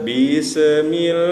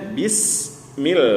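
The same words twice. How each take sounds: First: An extra short vowel sounds between s and m. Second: The s goes straight into m, no vowel. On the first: The speaker calls it wrong. "muncul deh bunyi se" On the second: The speaker calls it right. "Mestinya bismil, bismil langsung bis setelah sin bis langsung bunyi mim"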